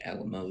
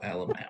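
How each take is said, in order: First: The final syllable is said plainly. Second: The final syllable is sharply emphasized. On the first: "like Alamo the battle" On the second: "but you stubbed your toe at the end"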